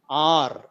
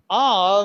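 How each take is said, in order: First: The r sound at the end is pronounced. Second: The r sound at the end is silent.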